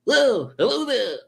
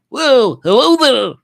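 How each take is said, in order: First: Very high hooting greeting at normal volume; Rob. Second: Very high, loud hooting greeting; Rob. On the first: Repeating Rob's greeting like he does, high impression held back. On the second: Reading Rob's comment like he does, high loud impression. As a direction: belt out the squeaky high impersonation. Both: Acted. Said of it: "Like he does".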